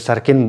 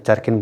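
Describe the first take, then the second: First: The word begins with an s sound. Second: The word begins with a ch sound. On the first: This is how another regional group says it. "च को सौ pronounce करेगा" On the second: This is how one regional group says it. "चारकिन बोलेगा"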